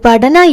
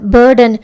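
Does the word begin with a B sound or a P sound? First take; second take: P; B. First: The word begins with a P sound. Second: The word begins with a B sound. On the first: The speaker calls it wrong. "அது படனா இல்ல" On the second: The speaker calls it right.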